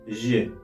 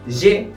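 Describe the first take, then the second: First: The vowel is said light and unstressed. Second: The vowel is said heavy and strongly stressed. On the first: It is the plain pronoun for I. The speaker calls it right. "de una forma bastante, bastante ligera" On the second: It sounds like a past tense form. The speaker calls it wrong. "pronunciando la letra E en una forma bastante acentuada, bastante grave"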